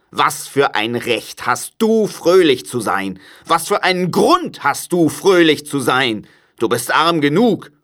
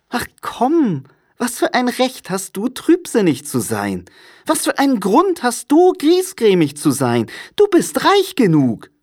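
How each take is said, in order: First: Cranky miser's challenge, pitch raised; crotchety uncle scolding; grumpy Scrooge, reproachful. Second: Very high, lively comeback; jolly, high-pitched young relative; cheerful nephew, teasing. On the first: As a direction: demand an answer scornfully. Scrooge's voice in the story. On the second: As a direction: playfully turn the reproach round. Nephew's voice in the story. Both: A narrator's reading.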